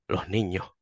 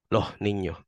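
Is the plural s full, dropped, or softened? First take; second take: softened; softened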